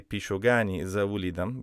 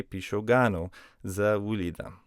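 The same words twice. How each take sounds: First: Pishogani with a final ee sound on the ending; wrong form, Pishogani. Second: Pishogano with a final oh sound on the ending; correct form, Pishogano. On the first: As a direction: say "Pishogani", ending on -i, as the example not to use. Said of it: "We can't say". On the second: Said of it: "We have to say". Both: Shown as a demonstration.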